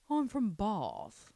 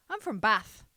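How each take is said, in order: First: Slow, lightly put-on English accent saying "Bath" with a broad vowel; a hint of a posh Bath English voice; mock English accent. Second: "Bath" said with a flat short a, louder; other English accent. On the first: Guessing how someone from Bath says it, lightly put-on English accent. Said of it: "I don't know how the Bathians speak". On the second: Retold or imitated. Trying the other way an English person might say it, flat "Bath". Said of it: "or do you say Bath?".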